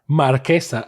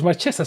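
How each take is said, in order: First: The middle consonant is a hard k sound. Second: The middle consonant is a ch sound. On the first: It puns on a noble title. The speaker calls it right. "I'm going to pronounce her as Marquesa" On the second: It sounds like she is marching. The speaker calls it wrong. "it's March, so it should be Marchesa"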